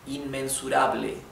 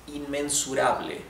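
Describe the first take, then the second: No difference in how they are said.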